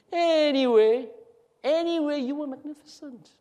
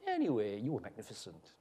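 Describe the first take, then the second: First: Exaggerated lilting echo of a compliment; mimicking the tone. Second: Soft, low, dropping away; subdued, almost under the breath; offhand praise. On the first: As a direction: stretch it out high, then fade. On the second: Acted. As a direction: toss the compliment off quietly. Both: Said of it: "Why did you say it like that?".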